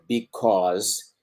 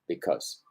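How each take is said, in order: First: The word is said fully with clear vowels. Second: The word is said short with reduced vowels. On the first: The word is being emphasized. "me van a pronunciar because cuando en realidad lo estén acentuando" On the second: It is an ordinary function word in context. "Tiende a pronunciarse"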